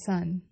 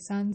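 First: The pitch falls sharply from high. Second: The pitch stays high and level.

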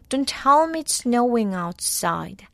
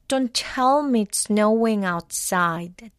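First: It is said at normal speed. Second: It is said more slowly.

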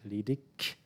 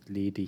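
First: The word ends with a hard k sound. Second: The word ends with a soft, non-k sound. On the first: This is how most people in southern Germany say it. "like with a K at the end, ledig, like hard" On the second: This is how most people in northern Germany say it. "in northern Germany, most people would pronounce it ledig"

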